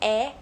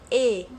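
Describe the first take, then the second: First: The vowel is open, with the tongue low. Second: The vowel is closed, with the tongue high. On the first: The speaker calls it wrong. "não falo é" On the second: The speaker calls it right. "eu falo e"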